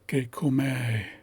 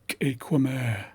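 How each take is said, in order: First: The first vowel sounds like 'ay'. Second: The first vowel sounds like 'eh'. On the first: "approximate pronunciation first" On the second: "and then accurate pronunciation"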